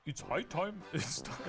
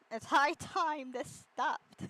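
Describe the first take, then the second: First: A mock British accent that slides toward German; botched British accent. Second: Slow, drawn-out weary line; weary groan. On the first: Host attempts the quote in a British accent, badly. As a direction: try a posh British accent and miss it. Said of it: "Is that German?". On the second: Retold or imitated. Joking about waking up, slow and fed up. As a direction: drag it out like you're fed up with everything. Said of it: "Me whenever I wake up".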